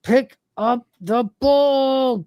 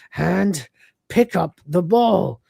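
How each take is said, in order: First: Very slow, higher, drawn-out command; straining command. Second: Slow, careful attempt at a command; deliberate command. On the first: Retold or imitated. Lister willing the stubborn arm to obey, straining command. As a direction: stretch every word out with mounting effort. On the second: Lister trying out the robotic arm, deliberate command. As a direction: spell out each word slowly.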